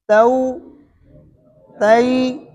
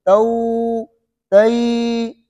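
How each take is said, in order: First: The vowel is softly and only slightly lengthened. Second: The vowel is drawn out for a long time. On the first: The speaker calls it right. "नरमी के साथ" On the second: The speaker calls it wrong. "ऐसे नहीं खींचने"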